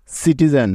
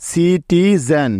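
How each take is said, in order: First: Said in the usual way. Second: citizen drawn out slowly, syllable by syllable; teacher saying citizen slowly; slow full word. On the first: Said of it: "বানানটা কেমন হলো". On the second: Shown as a demonstration. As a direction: stretch citizen for the learners. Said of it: "citizen শব্দের বানানটা কেমন হলো".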